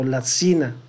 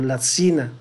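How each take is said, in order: First: The middle consonant sounds like a sibilant. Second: The same.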